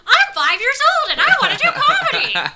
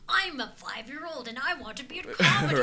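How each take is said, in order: First: A stronger, exaggerated imitation of Lynn's voice. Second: A mild, refined imitation of Lynn's voice.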